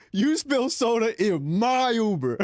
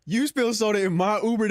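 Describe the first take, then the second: First: Slowly hammed-up irate driver, pitched a bit higher; lightly voiced offended driver, slow; slow mock angry driver. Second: Reading the message as an irate Uber driver, pitched a bit higher; lightly voiced indignant driver; mock angry driver. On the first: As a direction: drag out the driver's complaint mockingly. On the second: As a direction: play the offended driver, half-hammed. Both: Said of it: "It said".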